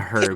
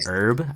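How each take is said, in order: First: The word starts with an audible H sound. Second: The word starts without an H sound. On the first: "I just like pronouncing the H" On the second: "It's actually herb"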